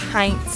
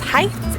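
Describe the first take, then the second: First: The name is said with an N sound. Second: The name is said without an N sound. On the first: The speaker calls it right. "it's in fact the Heinz Vineyard" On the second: The speaker calls it wrong. "ignoring the N"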